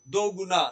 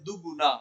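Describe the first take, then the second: First: The first vowel is a long 'o'. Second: The first vowel is a short 'u'. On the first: The speaker calls it wrong. "दो गुना नहीं बोला जाता है" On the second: The speaker calls it right. "जब जोड़ के बोलते हैं तो बोलते हैं दुगुना"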